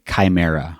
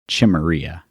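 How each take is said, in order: First: The title is pronounced the usual way. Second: The title is pronounced in a playful, altered way.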